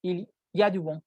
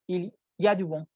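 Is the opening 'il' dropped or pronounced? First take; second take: dropped; dropped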